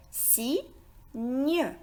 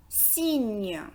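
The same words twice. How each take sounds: First: "Cygne" split in two, si, gne; syllable by syllable. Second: Said in the usual way. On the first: Shown as a demonstration. Teacher breaks "Cygne" down for learners, syllable by syllable. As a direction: say "Cygne" with a pause between si and gne. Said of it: "La syllabe si et la syllabe ñ". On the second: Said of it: "aussi composé de deux syllabes".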